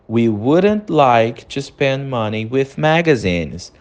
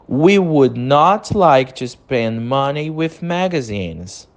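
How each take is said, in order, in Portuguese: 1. Would not é contraído numa palavra só. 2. Would not é dito por extenso, como duas palavras.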